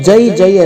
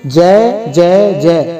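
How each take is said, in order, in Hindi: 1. स्वर को छोटा, सादा और सीधा बोला जाता है। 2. स्वर को 'e' ध्वनि की ओर खींचकर बोला जाता है। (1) "सीधा सीधा स्पष्ट नहीं बोलते" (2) "ऐसा ही बोलते हैं"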